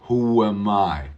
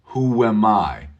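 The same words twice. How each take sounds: The two takes are said the same way.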